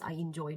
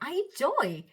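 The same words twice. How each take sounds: First: The voice sounds flat and cold. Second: The voice sounds bright and lifted. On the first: The speaker calls it wrong. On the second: The speaker calls it right. "how slightly my uh, voice sounded lifted"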